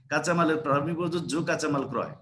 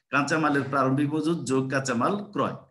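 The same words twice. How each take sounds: No difference in how they are said.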